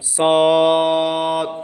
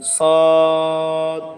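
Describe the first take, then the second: First: It is said in one thick syllable, sad. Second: The same.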